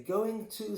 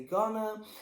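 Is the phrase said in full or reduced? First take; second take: full; reduced. First: Both words are said fully and separately. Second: The words are blended into one short word. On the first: "Some people will say going to" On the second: "some people will say gonna"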